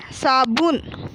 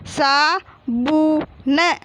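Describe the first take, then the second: First: Said in the usual way. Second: Very slow, drawn-out सा, बू, न; teacher stretching each syllable of साबुन. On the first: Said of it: "तो क्या हो गया?". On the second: Shown as a demonstration. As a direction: sound out सा बू न as three separate pieces. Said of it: "और फिर क्या लिखा हुआ है?".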